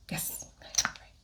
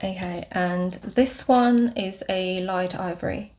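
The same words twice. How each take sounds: First: Soft whispered aside to herself. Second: Said in the usual way. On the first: Real, not acted. Vlogger confirming shade to herself, whispered. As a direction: breathe it, barely voiced.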